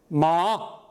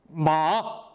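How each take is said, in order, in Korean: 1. 높이가 내려갔다가 다시 올라갑니다. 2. 높이가 내려갔다가 다시 올라갑니다.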